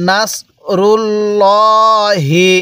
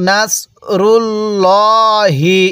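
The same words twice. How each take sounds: Both takes have the same delivery.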